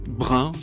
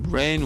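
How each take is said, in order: First: The word has a French pronunciation. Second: The word has an English pronunciation.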